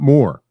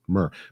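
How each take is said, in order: First: The vowel sounds like the word 'more'. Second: The vowel sounds like 'mur', not 'more'. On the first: The speaker calls it wrong. "Not more" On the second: The speaker calls it right. "M U U R, right? Not more. Mur"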